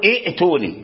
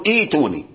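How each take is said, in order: First: ائتوني with both hamzas sounded, the forbidden form; wrong pronunciation. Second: ائتوني with the second hamza turned to a long i, ituni; correct pronunciation. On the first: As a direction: say ائتوني keeping the second hamza, as a bad example. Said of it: "فلا يجوز في اللغة أن تقول ائتوني". (نطق خاطئ لائتوني بهمزتين) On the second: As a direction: say ائتوني as ituni at the start of a phrase. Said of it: "فإذا ابتدأت بهذه الكلمة تقول ائتوني". (نطق صحيح: ائتوني بإبدال الهمزة ياء) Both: Shown as a demonstration.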